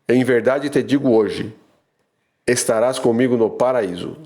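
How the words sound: The pause comes after the word hoje.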